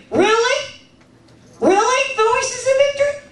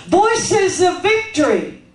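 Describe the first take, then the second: First: "Really" and "Voices of Victory" pitched high as doubting questions; questioning emphasis. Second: "Voices of Victory" said slowly as a firm statement, falling at the end; slow, declare "Voices of Victory" with finality; emphatic statement. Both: Shown as a demonstration. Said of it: "listen for the emphasis".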